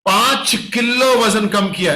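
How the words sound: Strong emphasis falls on 'five kilo'. The weight loss is a striking achievement. The speaker calls it right. "ऐसे बात करनी ... force on five kilo weight loss ... इसको बोलते हैं stress"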